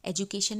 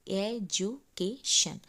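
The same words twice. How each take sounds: First: Said in the usual way. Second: "एजुकेशन" very slow, four beats: ए, जु, के, शन; syllable by syllable. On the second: Shown as a demonstration. Teacher counting four syllables, "एजुकेशन" split ए-जु-के-शन. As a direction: break "एजुकेशन" into ए-जु-के-शन with gaps. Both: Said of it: "एजुकेशन में चार syllable".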